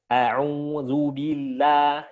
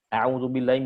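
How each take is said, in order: First: It is said with exaggerated, overly wide articulation. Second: It is said fast and unclearly. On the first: "Membuka mulutnya terlalu berlebihan" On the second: "bacanya terlalu cepat, jadi nggak jelas"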